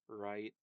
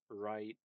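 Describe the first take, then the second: Both takes have the same delivery.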